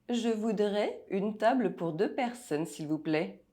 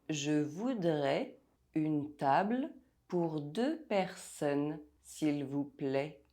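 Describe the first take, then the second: First: It is said at normal speaking speed. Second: It is said slowly and deliberately. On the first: "listen to the sentence without the text" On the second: "while I say it slowly"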